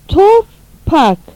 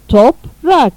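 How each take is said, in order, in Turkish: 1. r, p'den önce gelir. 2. p, r'den önce gelir. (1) "yanlış" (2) "doğru"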